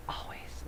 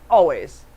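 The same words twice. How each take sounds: First: Unvoiced stage whisper. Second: Said in the usual way. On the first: Real, not acted. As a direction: breathe it as a secret.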